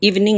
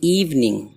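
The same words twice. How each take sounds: First: The word is said quickly. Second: The word is said slowly. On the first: The speaker calls it wrong. "इसको evening नहीं, जल्दी नहीं पढ़ना" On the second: The speaker calls it right. "बल्कि evening"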